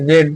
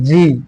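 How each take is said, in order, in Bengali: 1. অক্ষরটি 'zed' হিসেবে উচ্চারিত হয়। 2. অক্ষরটি 'zee' হিসেবে উচ্চারিত হয়। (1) "সকলে কিন্তু বলে থাকি এটা" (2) "সঠিক উচ্চারণটা হচ্ছে জি"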